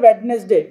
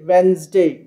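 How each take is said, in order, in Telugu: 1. 'n' ముందు 'd' శబ్దం వినిపిస్తుంది. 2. 'n' ముందు 'd' శబ్దం వినిపించదు.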